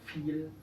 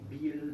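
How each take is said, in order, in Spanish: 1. El primer sonido sí es f. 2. El primer sonido no es f. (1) "La V es como la F" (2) "No digan"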